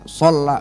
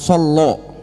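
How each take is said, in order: First: The vowels are pronounced as open 'a' sounds. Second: The vowels are pronounced as rounded 'o' sounds. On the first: The speaker calls it right. "sholla bukan solo" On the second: The speaker calls it wrong. "bukan solo"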